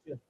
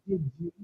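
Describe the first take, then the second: First: The D and Y blend into a J sound. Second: The D and Y are said separately. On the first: The speaker calls it right. "we say just" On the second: The speaker calls it wrong. "we don't say did you"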